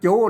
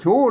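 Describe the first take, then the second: First: The word begins with a 'j' sound. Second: The word begins with a 'ch' sound. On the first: The speaker calls it right. "อ่านว่าจูนะ" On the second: The speaker calls it wrong. "เปิ้นไม่ได้อ่านว่าชู"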